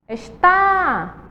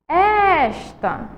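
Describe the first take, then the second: First: The stress is on the second syllable. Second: The stress is on the first syllable. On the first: "Qual é a sílaba mais forte? ... A segunda está acentuada" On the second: "A primeira sílaba é a mais forte"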